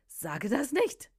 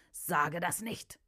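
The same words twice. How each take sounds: First: Slow, higher-pitched protest; demon's agitated protest. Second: Slow, measured warning; demon's warning. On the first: Demon answers the preacher, protesting higher and slowly. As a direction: draw it out, pitched up in alarm. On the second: Demon inside the woman warns the preacher, slow and measured. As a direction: draw each word out at normal volume. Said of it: "sprach die Stimme aus dem Innern dieser Frau". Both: A narrator's reading.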